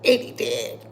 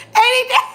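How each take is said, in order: First: Breathy near-whisper, barely voiced; almost whispered aside; hushed deadpan. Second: Much higher and louder, rising at the end; squealed punchline; gleeful punchline. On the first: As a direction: let it slip out under your breath. Deadpan repeat of own joke. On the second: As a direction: land the joke with delight. Repeats joke louder, cracking up. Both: Real, not acted.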